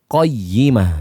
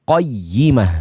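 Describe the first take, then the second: No difference in how they are said.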